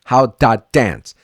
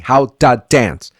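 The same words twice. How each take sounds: First: The word 'to' sounds heavy, like 'da'. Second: The same.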